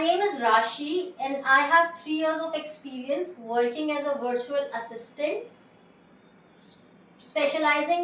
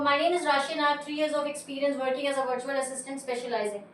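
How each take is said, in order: First: There is a pause before 'specializing'. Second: It runs on without a pause before 'specializing'.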